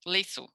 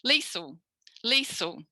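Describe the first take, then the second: First: Liesl stressed on "lee", with a weak second syllable; schwa ending. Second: Liesl with equal weight on both syllables; evenly stressed. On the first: Teacher shows student the alternative, Liesl with schwa ending. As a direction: reduce the end of Liesl to schwa, like Gretel. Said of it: "then you would be a schwa". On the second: Teacher shows student her own name, Liesl evenly stressed. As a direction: give the second syllable of Liesl as much stress as "lee". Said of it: "yours is a bit more even". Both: Shown as a demonstration.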